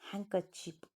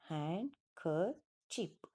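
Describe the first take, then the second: First: The d sound in the middle is dropped. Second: The d sound in the middle is pronounced.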